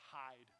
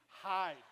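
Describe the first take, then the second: First: Said in the usual way. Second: Hide said louder, as a sudden alarm; louder warning. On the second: Shown as a demonstration. Pastor warning the church to hide, louder.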